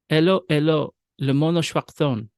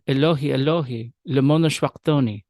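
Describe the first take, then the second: First: The final 'ee' sounds of the words are dropped. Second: The final 'ee' sounds of the words are pronounced. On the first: This follows the later Syriac reading tradition. "You'll notice I didn't pronounce the I's on the end" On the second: This may be how it was read at the time. "It could have, at the time, been read"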